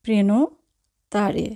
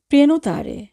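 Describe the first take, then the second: First: Prenotare slowly in two parts, "preno... tare"; teacher's slow breakdown of prenotare, preno, then tare; slow, split word. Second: Said in the usual way. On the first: Shown as a demonstration.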